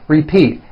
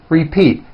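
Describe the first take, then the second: No difference in how they are said.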